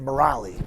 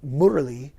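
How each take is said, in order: First: The name is said with an American pronunciation. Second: The name is said with an Indian pronunciation. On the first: This is how the name is said in America. "in America, we grew up saying Murali" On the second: This is how the name is said in India. "which is how they pronounce it in, in India"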